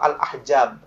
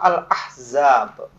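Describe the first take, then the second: First: The middle consonant is a j sound. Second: The middle consonant is a z sound. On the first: The speaker calls it wrong. "bukan surah Al-Ahjab ya" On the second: The speaker calls it right. "Sama dengan dalam surah Al-Ahzab"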